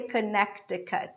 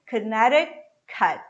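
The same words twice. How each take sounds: First: The middle T is a hard, full T. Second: The middle T is a quick, soft flap. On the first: The speaker calls it wrong. "I don't say Connecticut" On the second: The speaker calls it right. "This T becomes a flap T"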